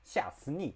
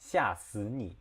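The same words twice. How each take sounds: First: It is said with Sichuan dialect tones. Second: It is said with standard Mandarin tones. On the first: "When you change it to Sichuan dialect, it becomes like" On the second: "That's normal Chinese"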